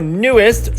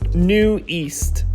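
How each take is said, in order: First: It sounds like the single word 'newest'. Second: It sounds like the two words 'new east'. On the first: The speaker calls it wrong. "Not what a lot of K-pop fans say" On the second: The speaker calls it right. "The Korean reads New East"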